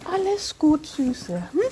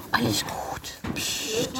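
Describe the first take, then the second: First: Gentle soothing to a horse; calm and reassuring. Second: Soft soothing whisper. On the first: Calming horse, spoken then whispered. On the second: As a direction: hush it gently. Calming horse, whispered take. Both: Real, not acted.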